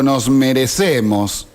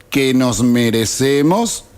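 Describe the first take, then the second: First: Said in the usual way. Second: "merecemos" rising into a question; questioning echo. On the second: Acted. Repite la frase cuestionándola. (pregunta en eco, subiendo en "merecemos")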